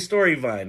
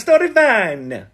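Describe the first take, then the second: First: It is said with a plain English inflection. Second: It is said with an Italian-sounding inflection. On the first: "I say story vine" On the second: "they say a story vine"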